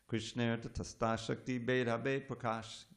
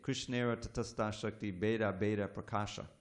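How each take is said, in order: First: The final vowels are dropped from the words. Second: Every final vowel is sounded, ending in Prakasha. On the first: The speaker calls it right. "See how it works?" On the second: The speaker calls it wrong. "If I sound every A"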